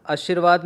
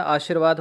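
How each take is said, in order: First: आशीर्वाद begun on a short a; wrong short vowel. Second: आशीर्वाद begun on a long aa; correct long vowel. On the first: Teacher showing the mistake, आशीर्वाद with short first a. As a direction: say आशीर्वाद as if written अशीर्वाद. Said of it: "नहीं होता है". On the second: Teacher correcting the word, आशीर्वाद with long aa. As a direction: open the first vowel of आशीर्वाद to aa. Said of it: "आ का डंडा आएगा". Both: Shown as a demonstration.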